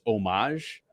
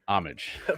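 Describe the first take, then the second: First: The word is said in a fancy way. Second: The word is said in a plain, ordinary way. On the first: The speaker is being posh. "if you're fancy, it's homage" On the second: The speaker is being ordinary. "and if you're not, it's homage"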